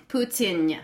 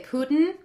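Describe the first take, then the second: First: Careful Russian-style "Putin", poo-tin-ya; corrected pronunciation. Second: "Putin" said POO-tn, the final vowel dropped, rising; wrong pronunciation. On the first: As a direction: sound out "Putin" fully, ending in a light nyuh. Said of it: "they don't drop their N's". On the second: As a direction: her usual "Putin" with a swallowed i. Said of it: "I'm saying it wrong 'cause I say". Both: Shown as a demonstration.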